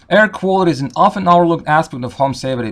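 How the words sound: It is read with an American accent. "let me read it in American accent"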